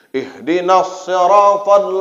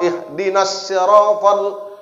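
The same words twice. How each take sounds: First: Siratal begins with an emphatic s sound. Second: Siratal begins with a plain s sound. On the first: "pakai shad" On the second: "itu pakai sin"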